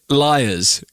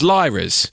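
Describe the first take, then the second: First: The name sounds like the word liars. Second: The name sounds like liras. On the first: "you called it liars" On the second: "I've always pronounced it as liras"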